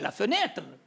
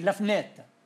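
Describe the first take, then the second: First: The first vowel of the word is pronounced. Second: The first vowel of the word is dropped. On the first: This is the full pronunciation that follows the spelling. "dice mica la fenêtre il parigino" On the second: This is how a Parisian actually says it. "i parigini non le pronunciano mica"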